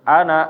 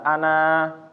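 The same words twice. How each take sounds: First: The final vowel is cut short. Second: The final vowel is drawn out long. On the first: The reciter continues without stopping. "kalau misalnya nggak berhenti, dilanjut pendek" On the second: The reciter stops after this word. "kalau misalnya kita berhenti itu dibaca ana"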